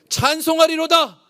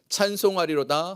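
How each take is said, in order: First: It is shouted loudly and excitedly. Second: It is said quietly and calmly. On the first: The speaker calls it right. "원래 이 뉘앙스로 읽어야 돼요" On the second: The speaker calls it wrong. "제가 이렇게 좀 조용하게 얘기했는데"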